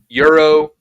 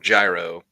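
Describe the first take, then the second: First: The word begins with a 'y' sound. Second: The word begins with a 'j' sound. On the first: "people say it differently around it, depending on what parts like either Euro or gyro. I call it Euro" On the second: "Some people call it gyro"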